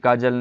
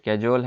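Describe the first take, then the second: First: It is pronounced like kajal. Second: It is pronounced like cajole. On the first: The speaker calls it wrong. "ये बिल्कुल भी काजल नहीं है" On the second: The speaker calls it right. "ये कैजुअल है"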